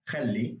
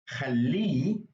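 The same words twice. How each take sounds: First: Said in the usual way. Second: Khalli with long, loud, rising final -li; stress on last syllable. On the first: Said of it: "here's an example with ya". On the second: Shown as a demonstration. Teacher demonstrates "let him", final syllable of khalli stressed. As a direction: stretch and punch the end of khalli. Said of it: "would have a ha at the end".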